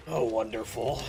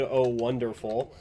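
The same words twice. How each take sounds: First: Low, raspy smoker's croak. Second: Said in the usual way. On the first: Real, not acted. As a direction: rasp it like a heavy smoker. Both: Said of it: "I said that like a smoker".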